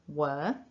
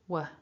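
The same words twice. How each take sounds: First: The word has a full, long vowel. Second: The word has a short, reduced schwa vowel. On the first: "So strong form" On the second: "So our weak form of that word, were, is just were"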